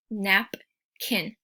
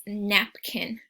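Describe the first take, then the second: First: Napkin broken into nap and kin, a gap between; syllables split. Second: Said in the usual way. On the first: Shown as a demonstration. Teacher splitting a word into syllables for the class. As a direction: say Napkin in two clear beats, nap then kin. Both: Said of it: "you can hear those two kind of groupings".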